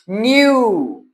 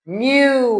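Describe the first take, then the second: First: न्यू said "nyoo", the w giving a u sound; teaching pronunciation. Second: न्यू said "nyoo", lifted; teaching pronunciation. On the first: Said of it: "W यू की sound देगा". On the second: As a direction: say न्यू as "nyoo" once more, higher. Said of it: "हम इसको पढ़ेंगे न्यू". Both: Shown as a demonstration.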